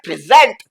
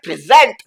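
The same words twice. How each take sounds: First: The stress is on the second syllable. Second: The stress is on the second syllable.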